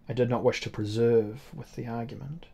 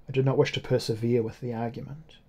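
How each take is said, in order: First: Preserve read in place of persevere, plain flat tone; the word preserve said by mistake; misread word. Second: Persevere read correctly, four syllables; the word persevere said properly; corrected word. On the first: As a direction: slip of the tongue, saying preserve where persevere belongs. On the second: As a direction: clean retake with the right word, persevere. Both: Shown as a demonstration.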